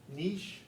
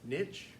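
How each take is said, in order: First: The word is said with a French pronunciation. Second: The word is said with an American pronunciation. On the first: "nice French word" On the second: "American biologists"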